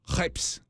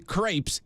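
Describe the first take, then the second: First: The word has a French pronunciation. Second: The word has an English pronunciation. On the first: The speaker calls it right. "which is how they pronounce that" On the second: The speaker calls it wrong. "if you say crepes, they get upset"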